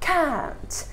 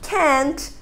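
First: It is said with a British accent. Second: It is said with an American accent. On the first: "Eles falam com a parte da frente da boca" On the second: "E já os americanos, eles têm um som mais do E"

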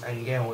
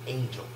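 First: The name is said with a Spanish pronunciation. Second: The name is said with an English pronunciation. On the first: The speaker calls it right. "I'm assuming it's pronounced Angel because he's from Argentina" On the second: The speaker calls it wrong. "and not Angel"

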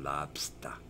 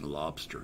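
First: It is said in a Boston accent. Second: It is said in a plain accent.

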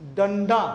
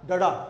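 First: A nasal sound comes before the middle consonant. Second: No nasal sound comes before the middle consonant. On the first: The speaker calls it right. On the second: The speaker calls it wrong.

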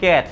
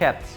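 First: The c is said without a puff of air. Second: The c is said with a puff of air. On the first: The speaker calls it wrong. "আমরা বলি ক্যাট না" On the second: The speaker calls it right. "একটু যদি বাতাস বের করে দিই"

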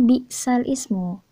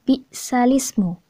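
First: The word ismu starts separately with its own vowel. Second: The lam carries the vowel and joins into ismu. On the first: "Tulisannya di sini itu bisal ismu" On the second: "harus membacanya bisalismu"

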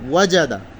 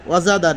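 First: The j sound is firm and hard. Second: The j sound is soft and weak. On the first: The speaker calls it right. "জিমকে একটু শক্ত করে" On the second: The speaker calls it wrong. "না"

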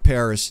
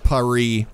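First: It is said with an English pronunciation. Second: It is said with a French pronunciation. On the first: The speaker calls it right. "That's what everybody calls it in English" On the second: The speaker calls it wrong. "suddenly saying Paris"

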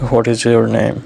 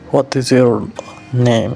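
First: It is said in a plain accent. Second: It is said in a Russian accent.

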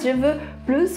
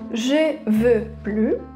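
First: The final S of plus is pronounced. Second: The final S of plus is silent. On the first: The speaker wants more. "a gente vai pronunciar o S de plus" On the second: The speaker does not want any more. "quando as pessoas querem dizer eu não quero mais"

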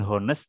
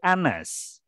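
First: The word begins with an audible h sound. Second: The word begins directly with a vowel sound. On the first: The speaker calls it wrong. "dia bacanya bukan honest" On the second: The speaker calls it right. "tapi anes"

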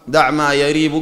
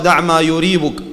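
First: The verb starts with an 'a' vowel. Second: The verb starts with a 'u' vowel. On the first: The speaker calls it right. "لكن الأصح دع ما يريبك بالفتح" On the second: The speaker calls it wrong. "وبعضهم ينطقها دع ما يريبك بالضم"

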